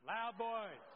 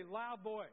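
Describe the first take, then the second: First: Loud, punched-out call to the crowd; full-voiced, emphatic prompt. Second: Said in the usual way. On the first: Shown as a demonstration. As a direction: say it louder to rally the room. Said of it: "Now say it loud". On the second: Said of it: "Everybody say".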